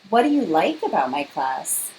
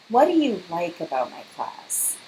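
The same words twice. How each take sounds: First: The question sounds eager and hopeful. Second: The question sounds doubtful and uncertain. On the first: The asker wants a positive answer. "it's very obvious I'm looking for something good for her to say" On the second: The asker suspects the class is disliked. "Notice my face, the intonation of the question... or I have doubts"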